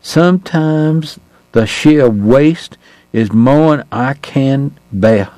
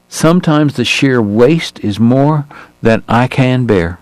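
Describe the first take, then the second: First: Put-on very slow, higher, heavily drawled Southern accent with more'n; thick Southern accent. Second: Slow, tired Southern gentleman's drawl; a weary Southern doctor, gently drawled. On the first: Narrator imitates Doc for the puzzled Austrian, thick Southern accent. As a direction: thicken the Southern drawl so a foreigner can't follow. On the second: Acted. Doc laments the young men's deaths, slow Southern drawl. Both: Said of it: "his accent even harder for a foreigner".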